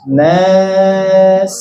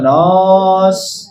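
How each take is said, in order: First: The vowel sounds like an open 'a'. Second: The vowel sounds like a rounded 'o'. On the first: The speaker calls it right. "jangan o, vokal a" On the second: The speaker calls it wrong. "bukan nos"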